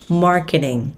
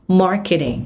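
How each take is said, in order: Both takes have the same delivery.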